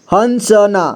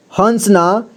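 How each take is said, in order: First: हंसना spelled out as han-sa-naa; syllable-by-syllable reading. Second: Said in the usual way. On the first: Shown as a demonstration. Teacher showing learners how to join letters, हंसना as han-sa-naa. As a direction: give हंसना a full middle vowel. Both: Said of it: "जोड़ जोड़ करके पढ़ना है".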